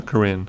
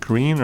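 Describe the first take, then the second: First: Corinne with a short "i" in the second syllable. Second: Corinne with a long "ee" in the second syllable. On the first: Chair offering the other name reading, Corinne with short i. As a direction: say Corinne as "kuh-RIN". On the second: Chair checking a donor's name, Corinne with long ee. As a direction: say Corinne as "kuh-REEN". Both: Shown as a demonstration. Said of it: "is it Corinne or Corinne?".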